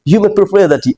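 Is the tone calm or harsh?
calm. It is said in a calm, gentle tone. The listener is being respected. The speaker calls it right. "अगर आप आराम से बोल रहे हैं तो समझ लो इज्जत मिल रही है"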